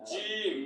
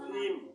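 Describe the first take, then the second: First: The first sound uses the middle of the tongue. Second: The first sound uses the tip of the tongue. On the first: The speaker calls it right. "লাগাইতে হবে কি জিব্বার মধ্যখান" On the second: The speaker calls it wrong. "যদি জিম কই তখন জিব্বার আগা যা লাগে"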